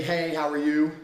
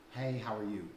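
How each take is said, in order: First: Loud, chirpy "Hey, how are you?" with a lift on "you"; typical opener. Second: Softer, lower "Hey, how are you?" falling on "Hey"; flat opener. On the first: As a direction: call it out like an eager guy. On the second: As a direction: drop it dully like a tired line. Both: Retold or imitated. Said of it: "a lot of men say".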